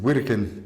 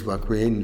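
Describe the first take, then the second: First: The name is said the Russian way. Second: The name is said the English way. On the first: "les Russes disent" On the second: "Les Anglais disent"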